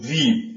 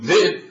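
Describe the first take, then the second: First: It has a long vowel, no glottal stop. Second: It has a glottal stop in the middle. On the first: This is how the Quraysh tribe says it. "القرشي يقول" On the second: This is how the Tamim tribe says it. "التميمي يقول"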